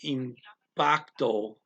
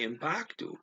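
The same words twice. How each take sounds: First: The word is said slowly and carefully. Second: The word is said quickly, as in fast talk. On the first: "as they're saying it slowly" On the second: "fast talking"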